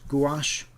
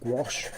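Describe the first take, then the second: First: It is said with a British pronunciation. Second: It is said with an American pronunciation.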